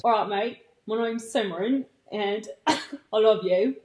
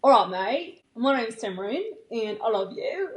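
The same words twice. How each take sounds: First: Badly faked Australian accent. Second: Shaky attempt at a British accent that sounds Australian. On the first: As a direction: have a clumsy go at an Australian accent. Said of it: "I'm doing the Australian first". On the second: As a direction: try a British accent and miss. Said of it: "For the British". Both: Shown as a demonstration.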